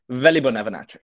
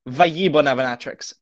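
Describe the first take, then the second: First: The double L is said as an L sound. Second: The double L is said as a Y sound. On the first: The speaker calls it right. "but actually Valley-Bonavinatrix" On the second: The speaker calls it wrong. "Not Vaillibonavinatrix, as some might have you believe"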